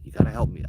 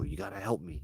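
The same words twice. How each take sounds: First: Said in the usual way. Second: Much softer, begging; hushed desperate ask; pleading with Uncle Joe, softly; quiet plea. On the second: Retold or imitated. Begging uncle over walkie-talkie.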